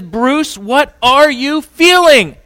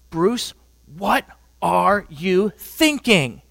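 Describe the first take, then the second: First: Much higher and louder, slowed demand; demanding yell. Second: Slow, drawn-out questioning of her husband; pleading wife. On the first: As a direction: shout the question at him. Wife winds up and demands again. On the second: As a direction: demand an answer, slowly. Wife confronts husband with fists. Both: Retold or imitated.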